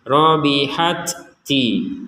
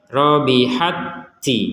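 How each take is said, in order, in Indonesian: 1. Dua bunyi t itu diucapkan terpisah. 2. Dua bunyi t itu digabung menjadi satu t bertasydid. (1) "itu kan dipisah" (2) "langsung seperti itu"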